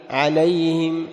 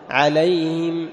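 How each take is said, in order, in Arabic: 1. صوت الهاء وحركته ضعيفان. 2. صوت الهاء وحركته ضعيفان.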